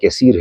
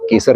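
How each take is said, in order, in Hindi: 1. यह शब्द 'seer' की आवाज़ पर खत्म होता है। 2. यह शब्द 'sar' की आवाज़ पर खत्म होता है। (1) "केसीर है" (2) "ये केसर नहीं"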